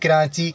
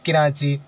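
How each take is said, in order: First: The first vowel is an 'i' sound. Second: The same.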